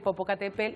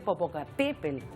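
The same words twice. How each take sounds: First: The stress falls on a syllable other than 'te'. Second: The stress falls on the syllable 'te'. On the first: This is how most people usually say it. The speaker calls it wrong. "todos estamos acostumbrados a decir Popocatépetl" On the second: This is how the name is properly said. The speaker calls it right. "se dice Popocatépetl con la, el acento en la E"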